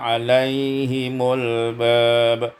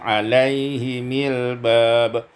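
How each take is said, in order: First: The vowel after m is u. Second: The vowel after m is i.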